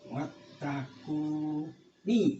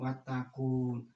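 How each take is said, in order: First: The word ends with a short i after n. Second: The word stops on the n without vowel. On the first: The speaker calls it right. "harus dibaca nunnya ini, dibunyikan" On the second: The speaker calls it wrong. "jangan diwakofkan watakun. Ini salah"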